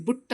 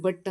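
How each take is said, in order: First: ಬುಟ್ said "boot" with a short oo; mistaken "u" vowel. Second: ಬಟ್ with the "uh" vowel of "cup"; correct short "uh". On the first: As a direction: show the error ಬುಟ್, vowel as in "put". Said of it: "ಬುಟ್ ಅನ್ನೋಕ್ಕಾಗಲ್ಲ". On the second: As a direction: model ಬಟ್ as "buht". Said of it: "ಬಟ್ ಅಂತಲೇ ಅನ್ಬೇಕಾಗತ್ತೆ". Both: Shown as a demonstration.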